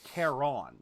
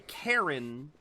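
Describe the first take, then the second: First: The stress is on the second syllable. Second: The stress is on the first syllable. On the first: The speaker calls it right. "You put a little bit more emphasis on the O" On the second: The speaker calls it wrong. "they say Karen"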